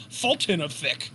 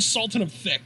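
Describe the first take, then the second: First: Lisped "Fulton of Thick", starting on an F; mock lisp. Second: Said in the usual way. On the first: Shown as a demonstration. Host showing how the nickname must be said, lisped "Fulton of Thick". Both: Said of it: "I have to say it with a lisp".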